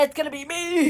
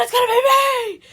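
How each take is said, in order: First: High, loud imitation; loud mock announcement. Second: Very high, full-volume hammed-up yell; mock scream. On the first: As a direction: belt it out, mimicking the line. First take of excited retold line. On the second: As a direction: scream it out in over-the-top imitation. Repeats line, escalating to mock scream.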